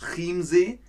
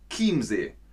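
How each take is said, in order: First: The first sound is not a K sound. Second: The first sound is a K sound. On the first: The speaker calls it wrong. "das ist nicht Chiemsee" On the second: The speaker calls it right. "es ist Chiemsee. Manche CH-Laute im Deutschen spricht man wie K aus"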